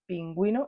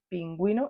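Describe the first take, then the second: First: The u after the g is clearly sounded. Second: The u after the g is clearly sounded.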